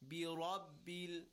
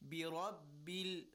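No difference in how they are said.

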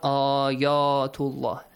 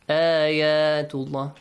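First: The first vowel sounds heavy and rounded. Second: The first vowel sounds light, mouth spread wide. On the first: The speaker calls it wrong. "not ayatullah" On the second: The speaker calls it right. "good job with that light sound. An a sound"

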